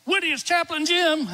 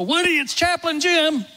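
First: High greeting right at his ear; called into his ear. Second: High, loud hello into the room; cheery loud greeting. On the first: Chaplain speaking right into a dying man's ear, high and clear. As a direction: announce yourself close and clear. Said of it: "I get right in his ear". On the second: Chaplain greeting a frail patient with a loud cheery call. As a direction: call out his name brightly to wake him. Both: Retold or imitated.

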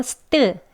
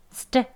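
First: "스트" with full Korean vowels, tt fully voweled; Korean-style st. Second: "스트" as one short s-t burst with tense t; clustered st. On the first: Teacher warns against Hangul sounds, Korean-accented "스트". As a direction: read "스트" as Hangul syllables. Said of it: "한글 소리로 그대로 스트". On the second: Teacher models it for learners, short tense "스트". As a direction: cut the vowels in "스트", keep t tense. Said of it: "유의해 주세요". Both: Shown as a demonstration.

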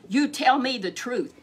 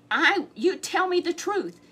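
First: Loud angry demand. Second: High, loud, slow demand; angry demand. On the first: Ahab demanding truth from Micaiah, angry and loud. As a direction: bark it at the prophet. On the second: Ahab demanding truth from Micaiah, high and slow. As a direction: drag out each word in anger. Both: Acted.

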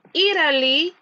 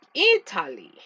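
First: American "Italy", T softened to a flap; American pronunciation. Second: Italy with a crisp, true T; British "Italy" with a hard T; British pronunciation. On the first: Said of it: "es inglés americano". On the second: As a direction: say Italy the British way, T fully sounded. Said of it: "es inglés británico". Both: Shown as a demonstration.

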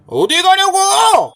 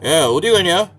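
First: Higher, drawn-out bully yell; angry yell. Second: Low-pitched bully challenge; low menace. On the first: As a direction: stretch the demand into an angry shout. Bully repeats it, angrier. (높게 늘여 버럭 소리치는 말투) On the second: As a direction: stop him with a low, controlled threat. Bully stops a passer-by. (낮게 깔고 시비 거는 말투) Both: Acted.

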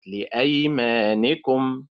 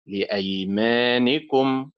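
First: Slow لأيمانكم, stressed on أي; wrong early stress. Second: Slow لأيمانكم, stressed on ما; stress on middle syllable. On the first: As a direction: punch أي in لأيمانكم. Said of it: "وليست لأيمانكم". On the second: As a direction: lean on ما as if stopping there in لأيمانكم. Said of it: "أتخيل أني سأقف عند ما". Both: Shown as a demonstration.

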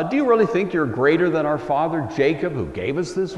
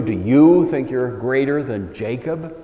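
First: "you" leaned on in "Do you really think"; "you" stressed, mildly incredulous. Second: "you" hit harder and louder; challenging "you", leaned on; stress on you. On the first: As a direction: push the word "you" as a challenge. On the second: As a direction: land hard on "you" in "Do you think". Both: Shown as a demonstration. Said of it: "emphasis on the word you".

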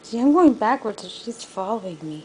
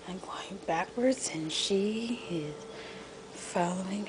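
First: Louder. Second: Whispered play-by-play. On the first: Louder retake of same point. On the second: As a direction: whisper so she keeps following. Whispered commentary. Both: Real, not acted.

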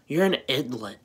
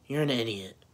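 First: "idlet" said with an l in place of the d, mocking; mocking mispronunciation. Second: Said in the usual way. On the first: Mocking the Greek kid's "idlet". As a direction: say "idlet" with an l, like the kid does. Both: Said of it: "as you say".

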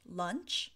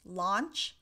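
First: "lunch" with a short UH vowel, rising; pronunciation demo. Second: "launch" with an open AH vowel, rising; pronunciation demo. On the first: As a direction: model "lunch" clearly, short UH against the AH of launch. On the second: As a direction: model "launch" clearly, open AH against the UH of lunch. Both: Shown as a demonstration. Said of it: "how can we pronounce launch".

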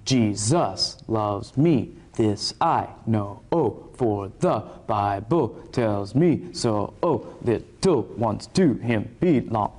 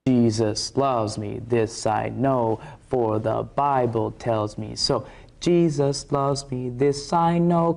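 First: Slow syncopated chant, je-SUS loves ME, this I know-OH; accent shifted to two. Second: Slow, even chant, JE-sus LOVES me THIS I KNOW on the downbeats; simple children's-song rhythm, accent on one and three; innocent on-beat rhythm. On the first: Showing the shifted accent, slow rap-like offbeat stress. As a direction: punch the offbeats, second syllable of Jesus hit, choppy hip-hop feel. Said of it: "shift the accent to the two". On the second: Showing how a child would sing it, slow on-beat stress. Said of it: "kinda like a child would sing". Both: Shown as a demonstration.

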